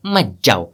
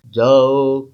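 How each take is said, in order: First: Put-on low elderly counter-order; grandfather's voice. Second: Curt paternal order, slightly lowered; father's voice. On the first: Grandfather contradicts father, low old man's voice. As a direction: forbid it in a lowered grandad voice. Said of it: "दादाजी की आवाज". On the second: Acted. Father urges son to go, lightly voiced paternal command. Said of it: "बाबूजी की तरफ".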